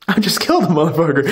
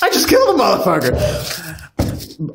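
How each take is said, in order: First: Said in the usual way. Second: Slow, drawn-out joking yell; mock shout. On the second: Podcaster repeating a joke line, mock shout. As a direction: stretch it out as a playful shout.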